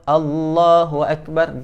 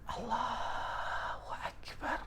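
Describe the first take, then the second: First: It is spoken aloud in a clear voice. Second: It is whispered under the breath. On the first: The speaker calls it right. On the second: The speaker calls it wrong.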